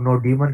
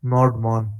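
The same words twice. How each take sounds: First: नोडीमन said as three syllables, "no-dee-man"; alternative pronunciation. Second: नोडमॉन said as two syllables, "node-mon"; Nodemon pronunciation. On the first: Teacher giving the other version, saying नोडीमन as "no-dee-man". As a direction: say नोडीमन with an extra "ee" in the middle. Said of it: "I don't know what is actual pronunciation". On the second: Teacher naming the package, saying नोडमॉन as "node-mon". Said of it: "कुछ लोग नोडीमन कहते हैं". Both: Shown as a demonstration.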